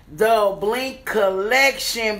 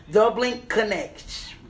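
First: The Blink Collection slowed down, each word spelled out; slow correction. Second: The Blink Connection said as Connection, a quick slip; misreading the brand name. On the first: Fixing her slip on the brand name for viewers, slow and deliberate. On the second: Reading the gift card, she slips on the brand name. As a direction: read The Blink Connection with Connection instead of Collection. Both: Real, not acted.

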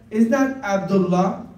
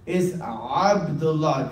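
First: Abdullah with an English a; wrong way. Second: Abdullah slow, opened from the throat with the Ain. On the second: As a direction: say Abdullah slowly with the Ain sound. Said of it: "'cause it's Ain". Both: Shown as a demonstration. Boy correcting the teacher's Abdullah.

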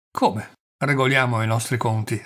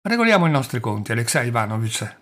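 First: Taken aback, repeating the words in disbelief; falling from the clouds. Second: Said in the usual way. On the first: A narrator's reading. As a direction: echo it back, mildly stunned. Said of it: "cadendo dalle nuvole". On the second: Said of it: "disse Pavel Pavlovich scrutandolo negli occhi".

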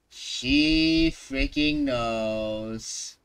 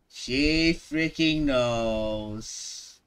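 No difference in how they are said.

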